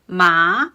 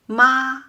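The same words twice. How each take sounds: First: The pitch rises a little. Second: The pitch stays level and steady. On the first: It means a mess or numbness. "with the second tone, ... my voice rose a little bit" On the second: It means mother. "with the first first tone, ... my voice stays level"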